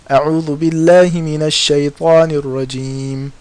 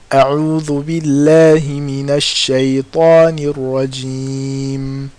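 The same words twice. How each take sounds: First: It is recited quickly with shorter vowels. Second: It is recited slowly with longer vowels. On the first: "the haraka is shorter because I recited faster" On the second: "In the first one, the haraka is longer"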